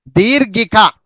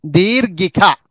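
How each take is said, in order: Both takes have the same delivery.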